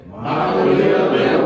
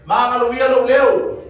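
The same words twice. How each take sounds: First: Sung, echoed. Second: "Ma'aloia lo leo" called out high and loud, slow; model tone. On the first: Echoing "Ma'aloia lo leo" back to the teacher in a slow chant. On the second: Teacher calling out "Ma'aloia lo leo" slowly for the class. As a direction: call out "Ma'aloia lo leo" slow and loud, rising and falling clearly. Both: Shown as a demonstration. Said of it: "try to mimic tone".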